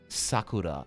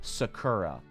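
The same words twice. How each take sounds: First: The word is said with a Japanese pronunciation. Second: The word is said with an English pronunciation. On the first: The speaker calls it right. "that's not how you pronounce uh, Sakura" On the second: The speaker calls it wrong. "pronounce a Japanese word in, uh, you know, an English way"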